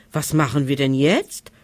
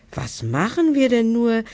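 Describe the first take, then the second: First: A mild, understated note of despair, voice dipping low. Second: High whiny wail, pitch lifted well up; whining. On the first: Monsters asking each other what now, mildly despairing. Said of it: "fragten die Monster verzweifelt". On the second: Monster leader stuck in the door, whining high. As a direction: plead it like a whimpering child. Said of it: "jammerte der Anführer". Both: Acted.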